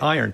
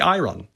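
First: The r comes after the final vowel, flipped. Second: The r comes before the final vowel, as spelled. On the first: The sounds have been flipped by metathesis. "Don't say iron" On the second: The older, unflipped order of sounds is kept. "Then say iron"

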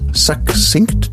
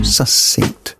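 First: The middle has a k sound before s. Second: The middle has only an s sound. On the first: The speaker calls it right. "KS becomes SS" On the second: The speaker calls it wrong. "KS becomes SS. This is technically an error"

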